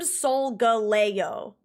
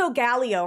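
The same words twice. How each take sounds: First: Solgaleo slowly as sol-ga-LAY-oh; confirmed emphasis. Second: Solgaleo with stressed GAL, sol-GAL-ee-oh; popular pronunciation. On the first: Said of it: "based on the emphasis". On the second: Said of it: "Or people say Solgaleo". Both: Shown as a demonstration.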